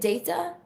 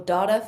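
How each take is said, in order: First: The word is said in a British accent. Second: The word is said in an American accent. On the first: "my British accent can be confusing" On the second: "for my American story"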